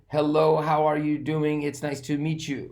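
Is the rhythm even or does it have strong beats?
even. The syllables carry even stress without strong beats. The speaker calls it wrong. "We don't say"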